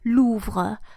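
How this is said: The final E is pronounced as a schwa. This is how the south of France says it. "pronouncing this letter E as an E ... the accent of the south of France"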